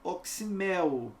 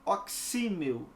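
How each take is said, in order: First: The stress falls on the last syllable. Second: The stress falls before the last syllable. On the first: The speaker calls it right. "é oximel" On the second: The speaker calls it wrong. "não é oxímel"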